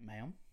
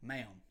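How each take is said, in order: First: It is said at normal, softer volume. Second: It is said louder.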